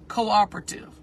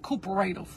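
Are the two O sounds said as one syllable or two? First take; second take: two syllables; one syllable. First: The two O sounds are in separate syllables. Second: The two O sounds merge into one syllable. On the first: The speaker calls it right. "that's the start of a new syllable" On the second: The speaker calls it wrong. "the word is not cooperative"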